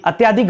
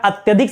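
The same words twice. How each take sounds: First: अत्याधिक with a long aa, at-yaa-dhik; wrong form. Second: अत्यधिक with a short a, at-ya-dhik; right form. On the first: Teacher to students showing the mistake, long yaa. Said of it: "अत्याधिक गलत होता है". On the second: Teacher to students giving the right form, short ya. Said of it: "अत्यधिक सही होता है". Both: Shown as a demonstration.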